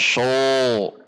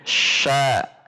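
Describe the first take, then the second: First: The syllable sounds heavy, with a dark o-like vowel. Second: The syllable sounds light, with an open a. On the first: The speaker calls it wrong. "tidak sho" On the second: The speaker calls it right. "huruf berbunyi sya"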